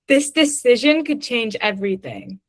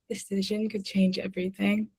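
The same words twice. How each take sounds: First: It is said very loudly. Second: It is said very softly.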